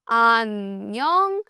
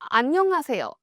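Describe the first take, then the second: First: It is said slowly. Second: It is said at normal speed.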